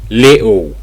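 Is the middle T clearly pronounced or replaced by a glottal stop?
glottal stop. The middle T is replaced by a glottal stop. "In Cockney English"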